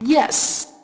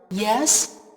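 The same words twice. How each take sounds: First: The pitch falls sharply on the word. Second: The pitch rises on the word. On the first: It enthusiastically agrees. "like an enthusiastic affirmation" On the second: It asks who is at the door. "the rising tone, like the word yes used when answering the door"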